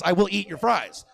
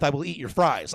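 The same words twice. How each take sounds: First: "will" punched high; insistent mock vow with a raised "will"; emphatic repeat. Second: Said in the usual way. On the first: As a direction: hit "will" hard, higher pitched, then fall.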